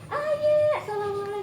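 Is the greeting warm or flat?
warm. The greeting sounds warm and happy.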